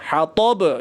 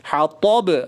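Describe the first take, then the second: First: The word ends on a bouncing b consonant. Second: The same.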